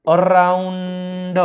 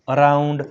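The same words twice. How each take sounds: First: અરાઉન્ડ drawn out in parts, અર-આઉન-ડ; teacher slowly sounding out અરાઉન્ડ; sounded out. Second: Said in the usual way. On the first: Shown as a demonstration. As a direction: stretch અરાઉન્ડ slowly on a held note. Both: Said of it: "તેનો ઉચ્ચાર આવ થાય છે".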